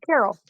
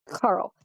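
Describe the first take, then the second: First: The name is said with two syllables. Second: The name is said with one syllable. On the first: The speaker calls it wrong. "I see the name and I go" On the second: The speaker calls it right. "It's Carl"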